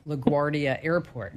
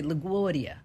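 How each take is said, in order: First: LaGuardia with a clear r, said plainly; LaGuardia, r pronounced. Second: LaGuardia as "la-GWAH-dia", r dropped; New Jersey LaGuardia. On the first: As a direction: say LaGuardia the standard way. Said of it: "you probably say". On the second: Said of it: "No, we say LaGuardia". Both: Shown as a demonstration.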